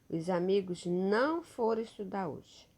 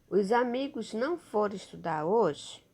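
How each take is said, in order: First: It is said as a statement, falling. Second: It is said as a question, rising.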